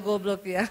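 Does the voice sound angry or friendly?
friendly. It is said in a smiling, friendly tone. The speaker points out the mistake without offending. "cuma sambil senyum"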